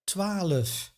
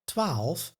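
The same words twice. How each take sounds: First: An extra uh vowel splits the final consonants. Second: No extra vowel splits the final consonants. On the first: "some say; a tiny extra e" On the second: "Instead of"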